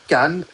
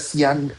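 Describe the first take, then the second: First: The word begins with a k sound. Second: The word begins with an s sound. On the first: The speaker calls it right. "क की sound से आएगा" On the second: The speaker calls it wrong. "तुम्हारा सियान नहीं होगा"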